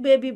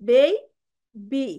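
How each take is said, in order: First: The first vowel is a pure short 'e'. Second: The first vowel glides from 'e' to 'i'. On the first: The speaker calls it wrong. "আমরা naturally এগুলো জানি এটাকে বেবি বলে" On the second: The speaker calls it right. "Correct pronunciation আসতেছে বেই বি"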